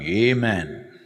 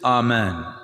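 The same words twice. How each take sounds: First: It is said in an American way. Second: It is said in the original, non-American way. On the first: "gone to United States of America and become Amen" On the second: "this Amen"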